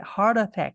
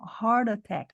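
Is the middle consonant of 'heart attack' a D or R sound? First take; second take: R sound; D sound. First: The middle t is said like a tapped R. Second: The middle t is said like a D. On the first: "a gente pode colocar um som de R" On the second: "ela fez um som de D"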